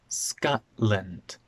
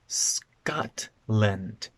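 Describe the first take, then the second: First: The middle sound is a glottal stop. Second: The middle sound is a full T. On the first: "becomes Scotland" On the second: "Scotland becomes"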